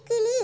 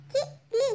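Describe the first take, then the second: First: Said in the usual way. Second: கிளி split into two separate syllables; letter by letter. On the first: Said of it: "உச்சரித்து வாசிங்க". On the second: Shown as a demonstration. Pupil reads aloud for the teacher, கிளி syllable by syllable. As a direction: sound out கிளி softly, a gap after the first syllable. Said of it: "ஒவ்வொரு எழுத்தா உச்சரித்து வாசிங்க".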